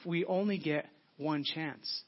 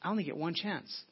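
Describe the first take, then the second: First: Slow, stretched, "only" stressed; slow it right down to land it; slow emphatic. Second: Said in the usual way. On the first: Real, not acted. Repeated slowly for emphasis.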